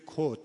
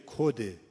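First: کد cut off on the final d; no kasra. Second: کده with a short e ending; kasra on the end. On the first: Teacher showing the Kermani form, کد without final e. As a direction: say کد with no e ending. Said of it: "یعنی کسره نمیاره اولاً". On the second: Teacher showing what the operator doesn't say, کده with final e. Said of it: "گفتم اولاً نمیگه کده". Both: Shown as a demonstration.

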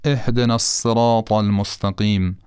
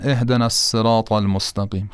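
First: الصراط with a thick emphatic ص; الصراط با صاد درشت; heavy ṣad. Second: الصراط with an ordinary thin s; الصراط با سین معمولی; plain sin. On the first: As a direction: recite الصراط heavy and dark. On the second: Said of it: "خیلی معمولی". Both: Shown as a demonstration.

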